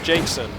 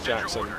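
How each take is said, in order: First: The first vowel sounds like the vowel in 'cake'. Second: The first vowel sounds like the vowel in 'back'. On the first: This is the speaker's own habitual pronunciation. "I call it a Jakeson" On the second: This is the standard name. "I know it's called a Jackson"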